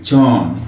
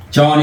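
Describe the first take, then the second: First: "chon" with a strong falling tune to imply very early; emphatic chon. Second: Said in the usual way. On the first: Shown as a demonstration. Teacher contrasting plain and emphatic "chon" for students, stressed fall. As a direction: hit "chon" hard and let the pitch fall. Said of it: "the way you say it to imply early is chon". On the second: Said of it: "Chon is just like this".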